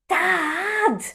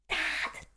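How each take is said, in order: First: It is whispered a little louder. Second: It is whispered very softly.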